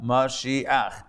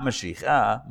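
First: "Mashiach" ending a then ch; "Mashiach" with the final guttural ch; right reading Mashiach. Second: "Mashiach" ending in cha, slow; "Mashiach" said ch then a, marked wrong; wrong reading Mashiacha. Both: Shown as a demonstration. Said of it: "Not Mashiach".

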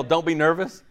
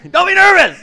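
First: Said in the usual way. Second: High, very loud mock yell; comic full-volume shout. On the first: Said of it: "you yell". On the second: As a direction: bellow it at a nervous person. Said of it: "you yell, "Don't be nervous".

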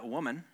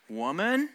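First: Gentle "Woman". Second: "Woman?" with a sharp questioning rise; blunt "Woman?". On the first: Jesus gently addressing his mother, soft "Woman,". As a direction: make "Woman," a tender term of endearment. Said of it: "which basically translate to "dear lady". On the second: Jesus answering his mother, a curt rising "Woman?". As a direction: call her "Woman?" curtly, a little high. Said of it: "I can highly recommend not saying this". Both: Retold or imitated.

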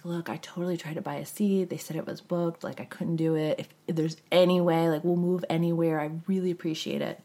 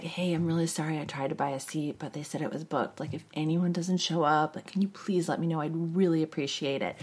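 First: Quiet, humble request; soft pleading. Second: Quiet, sweet-talking request; soft pleading. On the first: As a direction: ask softly, very polite. Same plea to the steward. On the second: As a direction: plead softly and politely. Pleading with the gate agent. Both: Retold or imitated.

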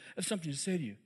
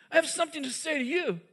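First: Hushed Jesus. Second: Pitched up, pressing the words home; insist, voice lifted, on being heard; raised insistent Jesus. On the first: Jesus speaking softly to Simon, hushed and intimate. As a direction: lower and softer, drawn in close. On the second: Jesus pressing Simon at dinner, raised and insistent. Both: Retold or imitated. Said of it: "he says to Simon".

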